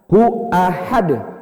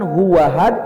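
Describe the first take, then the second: First: A glottal stop separates hu from ahad. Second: A w sound links hu to ahad. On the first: The speaker calls it right. "Yang benar adalah qul huwallahu ahad" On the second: The speaker calls it wrong. "bukan huwahad"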